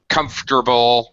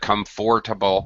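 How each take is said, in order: First: The middle vowel is dropped, three syllables. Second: The middle vowel is pronounced, four syllables. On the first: "It's common to drop that middle vowel sound" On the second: "instead of"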